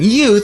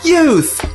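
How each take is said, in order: First: It is said with indignation. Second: It is said in a cheery, playful way.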